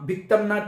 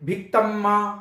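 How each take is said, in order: First: It ends in 'm' then a separate 'na'. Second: It ends in a run-together 'mma' sound. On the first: The speaker calls it right. "যেভাবে বলছি" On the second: The speaker calls it wrong. "ভুলবশত উচ্চারণ করেন"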